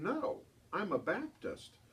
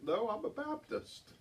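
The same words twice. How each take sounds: First: Put-on slow, higher childlike reply; child's innocent answer. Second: Put-on higher, slow childlike punchline; child voice, relished. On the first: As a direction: say it slowly with a child's earnest innocence. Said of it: "And she said". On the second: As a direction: savor the child's line again. Host replays the punchline.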